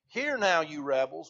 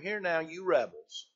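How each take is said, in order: First: It is said forcefully, with strong emphasis. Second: It is said mildly, with little emphasis. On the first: The speaker calls it right. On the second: The speaker calls it wrong.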